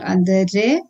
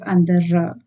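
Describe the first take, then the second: First: The word ends with a pronounced r sound. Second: The word ends with an open ah sound. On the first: The speaker calls it wrong. "it is not andere" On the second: The speaker calls it right. "it has to be pronounced as A"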